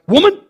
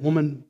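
First: It is said harshly, as a rebuke. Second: It is said tenderly, with affection.

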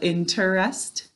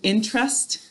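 First: The word is said with three syllables. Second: The word is said with two syllables. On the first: This is how it is said to help spell it. "or as we say to spell it" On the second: This is how it is said in normal talk. "When we're talking, it sounds like it's 2 syllables"

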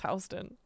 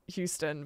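First: It is said the New York street way. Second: It is said like the Texas city name. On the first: The speaker knows the local street name. The speaker calls it right. "but it's Houston" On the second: The speaker is not from New York. The speaker calls it wrong. "If you're not from New York, you would absolutely pronounce it Houston"

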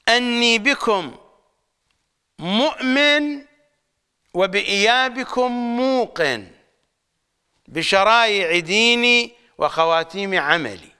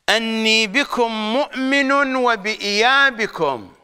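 First: The phrase breaks after 'mu'min' and after 'muqin'. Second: The phrase breaks after 'wa-bi-iyabikum', before 'muqin'. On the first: 'Muqin' belongs with 'wa-bi-iyabikum'. "القراءة عند عامة الشيعة هكذا" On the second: 'Muqin' begins the phrase that follows it. "قراءة المراجع هكذا يقرؤونها"

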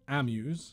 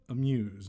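First: The stress is on the first syllable. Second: The stress is on the second syllable. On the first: The speaker calls it wrong. "not amuse" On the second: The speaker calls it right. "We have amuse"

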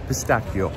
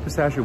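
First: The word is said with an Italian-style pronunciation. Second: The word is said with an American pronunciation. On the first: This is how it is actually said. The speaker calls it right. "but it's actually pistachio" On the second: This is how Americans say it. The speaker calls it wrong. "Americans say pistachio wrong. We say pistachio"

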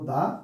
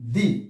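First: The vowel is a short, neutral 'uh'. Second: The vowel is a long, high 'ee'. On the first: The next word starts with a consonant. "যদি আমরা কনসোনেন্টের আগে THE ব্যবহার করি তাহলে উচ্চারণ করবো" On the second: The next word starts with a vowel. "যদি ভাওয়েলের আগে THE উচ্চারণ করি তাহলে উচ্চারণ করবো হলো আমরা দি"

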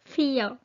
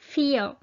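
Both takes have the same delivery.

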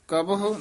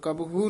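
First: The word ends with a clear h-u sound. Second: The word ends without a clear h-u sound. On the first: The speaker calls it right. "ਕਬਹੁ ਉਚਾਰਨ ਕਰਨਾ ਹਾਹੇ ਔਂਕਣ ਨਾਲ" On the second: The speaker calls it wrong. "ਕਬਹੁ ਨਹੀਂ ਕਹਿਣਾ"

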